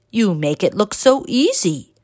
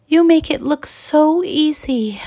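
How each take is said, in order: First: Lightly voiced master, near the narrator's own pitch; master's playful echo. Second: High-pitched pupil's wistful sigh; sighing young pupil. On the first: Master turns pupil's words on her, playful echo. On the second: Pupil to her master at the wheel, high sighing. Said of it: "sighed Avida". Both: A narrator's reading.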